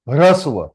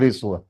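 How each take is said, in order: First: The first syllable is said with an 'a' vowel. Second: The first syllable is said with an 'i' vowel. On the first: This is the Sanskrit way of saying it. The speaker calls it right. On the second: This is the Hindi way of saying it. The speaker calls it wrong.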